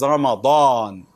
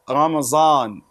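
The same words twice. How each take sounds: First: The consonant is said as an emphatic d. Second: The consonant is said as a z sound. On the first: The speaker calls it right. "There is Ramadan" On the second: The speaker calls it wrong. "there is no Ramadan"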